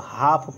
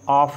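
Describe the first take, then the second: First: The word begins with an audible h sound. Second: The word begins directly with a vowel sound. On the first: The speaker calls it right. "इसको हाफ पढ़ते हैं" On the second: The speaker calls it wrong. "ऑफ नहीं पढ़ते हैं"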